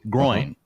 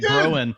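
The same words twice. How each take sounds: First: The word rhymes with coin. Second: The word does not rhyme with coin. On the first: The speaker calls it right. "it's coin with a G R in front" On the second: The speaker calls it wrong. "normally I say groin"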